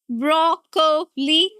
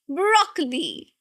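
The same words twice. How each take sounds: First: The stress is on the second syllable. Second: The stress is on the first syllable. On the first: The speaker calls it wrong. "No, that's wrong. Absolutely wrong" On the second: The speaker calls it right. "the stress here is on the first one"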